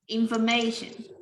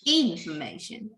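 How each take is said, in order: First: The stress is not on the first syllable. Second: The stress is on the first syllable. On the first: The speaker calls it right. "We stress at the red parts and you can see it's clear" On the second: The speaker calls it wrong. "if we're changing the stress at the first syllable"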